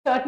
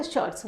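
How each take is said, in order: First: Said in the usual way. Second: "शर्ट्स" closed with a ts sound; plural ending sounded. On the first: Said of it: "नहीं बोलते". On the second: Shown as a demonstration. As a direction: give "शर्ट्स" as the correction, final s audible. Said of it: "शर्ट नहीं बोलते".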